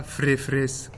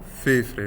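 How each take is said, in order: First: Frefres with the full fr cluster repeated, slowly; wrong form frefres. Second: Fefres with only the f repeated: fe then fres; correct form fefres. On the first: Lecturer slowly demonstrating the wrong reduplication, frefres. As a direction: say frefres, copying fr whole before fres. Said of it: "Donc pas". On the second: Lecturer giving students the right reduplication, fefres. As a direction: say fefres, copying just the f. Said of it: "mais uniquement". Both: Shown as a demonstration.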